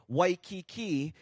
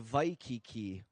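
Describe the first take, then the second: First: The word begins with a W sound. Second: The word begins with a V sound. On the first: "say Waikiki" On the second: "I don't really hear too many people say Waikiki"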